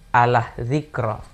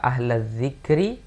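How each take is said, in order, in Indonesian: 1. Kata kedua diakhiri dengan vokal o. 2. Kata kedua diakhiri dengan vokal i. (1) "dengan Allah zikro" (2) "kalimat yang seharusnya dibaca ahla zikri"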